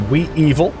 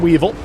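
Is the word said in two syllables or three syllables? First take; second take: three; two. First: The word is split into three separate syllables. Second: The word is said smoothly in two syllables. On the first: The speaker calls it wrong. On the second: The speaker calls it right.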